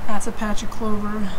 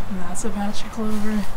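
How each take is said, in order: Both takes have the same delivery.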